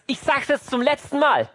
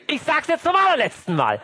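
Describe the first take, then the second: First: Higher-pitched acted warning; exasperated mother. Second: High-pitched, escalated acted warning; shouting mother. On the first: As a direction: play a parent's final warning. (gereizte Mutter, letzte Warnung) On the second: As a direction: play a parent at breaking point. (schreiende Mutter, schrill eskaliert gespielt) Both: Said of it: "bevor Mama schreit und sagt".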